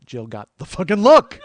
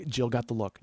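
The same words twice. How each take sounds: First: Loud, higher, stress on LOOK; emphatic outburst. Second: Said in the usual way. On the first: Retold or imitated. Friend telling how Jill got the look, emphatic outburst. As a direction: punch LOOK loud and high.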